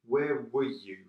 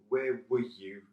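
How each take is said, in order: The two takes are said the same way.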